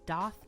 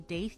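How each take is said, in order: First: The vowel sounds like the vowel in 'dot'. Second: The vowel sounds like the vowel in 'day'. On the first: The speaker calls it right. "a doth piercing" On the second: The speaker calls it wrong. "A lot of people say daith. ... not the intended pronunciation"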